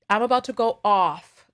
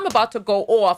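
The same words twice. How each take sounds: First: It is said in a softer Midwestern-style accent. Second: It is said in a strong New York accent. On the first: "let me try to bring it back down" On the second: "my New York accent is so strong"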